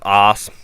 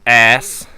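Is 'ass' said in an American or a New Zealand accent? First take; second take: New Zealand; American. First: It is said with a New Zealand accent. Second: It is said with an American accent. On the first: "instead of ass" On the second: "he says ass"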